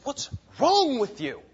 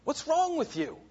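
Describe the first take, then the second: First: Slow, raised rebuke. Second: High, strained imitated rebuke. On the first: Retold or imitated. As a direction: drag out the scolding question, pitched up. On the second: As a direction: throw the scolding up into a much higher voice. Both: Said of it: "he rebukes them".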